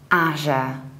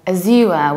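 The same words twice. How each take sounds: First: The stress is on the first syllable. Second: The stress is on the second syllable. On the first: This is the usual name of the platform. "we usually say Azure" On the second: This is a posher, older version referring to the color. "in the British accent ... with a stress on the second syllable"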